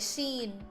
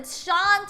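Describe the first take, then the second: First: The name is pronounced like Sheen. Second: The name is pronounced like Shawn. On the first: A newcomer misreads the name. The speaker calls it wrong. "they'll be like Sheen" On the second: The class corrects the name. The speaker calls it right. "we had to like learn how to pronounce it as Sean"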